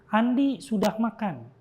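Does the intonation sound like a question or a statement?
statement. It is said with statement intonation. It reports that Andi has eaten. "Ya itu berarti kalimatnya deklaratif, kalimat berita"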